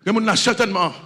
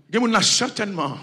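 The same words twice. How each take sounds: The two takes are said the same way.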